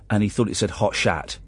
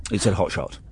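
First: "shat" said with an open a, like hat; misread word. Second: "shot" said with a short o; correct word. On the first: Retold or imitated. Son's misreading retold. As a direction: say "shat" where "shot" belongs. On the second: Shown as a demonstration. Host correcting son's misreading. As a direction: say "shot" clearly with an o.

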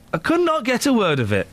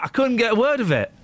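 First: "could not" split into two words, NOT hit firmly; emphatic stress on NOT. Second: Said in the usual way. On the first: Real, not acted. Host insisting he never understood the Geordie, stress on "not". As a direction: repeat it insistently, leaning on "not".

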